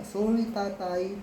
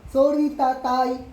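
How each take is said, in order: First: Slow, careful "Sorry, tatay"; a father showing how to say sorry, slowly and gently; slow proper apology. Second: Put-on slow, louder "Sorry, tatay", yelled like the kid; a father mimicking his son's shouted sorry, loud and slow; mock shouted sorry. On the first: Shown as a demonstration. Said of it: "Di ba dapat nga". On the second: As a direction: imitate the child yelling his apology. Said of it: "lakas ng boses mo eh".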